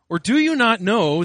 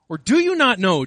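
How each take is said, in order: First: It is read in a plain, neutral tone. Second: It is read in an incredulous, disbelieving tone.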